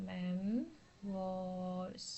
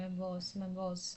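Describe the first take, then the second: First: മെംവോസ് stretched very slowly, softer and lower, mem... wooos; slow pronunciation demo. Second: മെംവോസ് as mem-wos in one go, twice over; joined-up pronunciation. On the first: Teacher demonstrating to students, മെംവോസ് slowly syllable by syllable. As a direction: draw out both syllables of മെംവോസ്. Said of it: "ഇങ്ങനെയാണ് pronounce ചെയ്യേണ്ടത്". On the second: Teacher modelling it for students, മെംവോസ് as one smooth word. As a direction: say മെംവോസ് whole, softer and lower, without stretching. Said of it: "ഇങ്ങനെയാണ് ഇത് pronounce ചെയ്യുന്നത്". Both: Shown as a demonstration.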